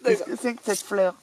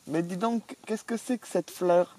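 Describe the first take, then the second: First: Hammed-up English accent on «Qu'est-ce que c'est que cette fleur?», pitched higher. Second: Mild mock English accent in French, a touch higher and slow. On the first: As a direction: play the Englishman puzzling over the flower. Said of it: "C'est un Anglais". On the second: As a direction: lightly put on an Englishman speaking French. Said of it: "C'est un Anglais, c'est un Anglais".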